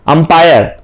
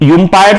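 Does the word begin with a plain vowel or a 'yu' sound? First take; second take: plain vowel; yu sound. First: The word begins with a plain vowel sound. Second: The word begins with a 'yu' sound. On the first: The speaker calls it right. "अ पढ़ते हैं" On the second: The speaker calls it wrong. "यूम्पायर तो नहीं पढ़ते"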